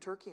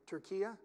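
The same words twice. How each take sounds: First: The name is said the usual English way. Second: The name is said the Turkish way, like Türkiye. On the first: This is the old name that is no longer used. The speaker calls it wrong. "it's not even Turkey anymore" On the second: This is the name the country goes by now. The speaker calls it right. "It's called Turkey"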